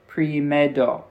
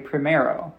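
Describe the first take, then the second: First: The R is a quick tap like D. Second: The R is pronounced like an American R.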